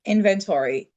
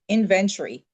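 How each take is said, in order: First: "inventory" with a full "tory" ending; American pronunciation. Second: "inventory" with a reduced "tree" ending; shortened "inventory", no "or" sound in the ending; own British-style pronunciation. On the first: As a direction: say "inventory" as IN-ven-tor-ee. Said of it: "they would emphasize different parts". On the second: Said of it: "We, we said inventory". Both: Shown as a demonstration.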